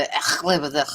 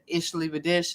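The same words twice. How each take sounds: First: "Ich liebe dich" with harsh throat-scraped ch; throaty "ich" dialect. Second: "Ich liebe dich" with soft sh endings; soft "ich" dialect. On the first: Host contrasting two German dialects, throat-hawking version. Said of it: "sound like they're hawking up a loogie". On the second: Host contrasting two German dialects, soft sh version. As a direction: say "Ich" and "dich" like "ish" and "dish". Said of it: "there's two different dialects". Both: Shown as a demonstration.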